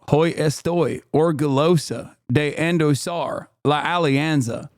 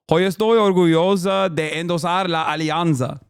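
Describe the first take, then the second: First: It is read with an exaggerated American accent. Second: It is read with an attempted Spanish accent. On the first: "When I do the deliberate Peggy Hill" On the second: "I'm going to try"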